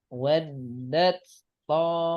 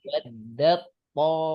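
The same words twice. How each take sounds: First: The d sound is kept separate before t. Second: The d sound is merged into the t. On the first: The speaker calls it wrong. "Kira-kira yang betul yang mana?" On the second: The speaker calls it right. "Yang kedua. Betul ya"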